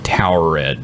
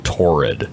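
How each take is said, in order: First: The name sounds like the word towered. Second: The name sounds like the word torrid. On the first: The speaker calls it right. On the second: The speaker calls it wrong.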